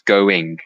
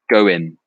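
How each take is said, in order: First: The final g sound is pronounced. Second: The final g sound is dropped. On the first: "it means going" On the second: "without the G"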